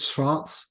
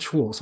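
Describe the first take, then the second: First: "Schwartz" said as "Shvarts", with an open ah; tentative German "Schwartz", as "shvahrts"; German-style pronunciation. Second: "Schwartz" said as "Shworts", with w and an or vowel; anglicised "Schwartz", as "shworts"; English-style pronunciation. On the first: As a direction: say "Schwartz" the German way, v sound and ah vowel. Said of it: "pronounce it in the German way". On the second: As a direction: say "Schwartz" the English way, rhyming with "quarts". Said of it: "last time I said Schwartz". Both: Shown as a demonstration.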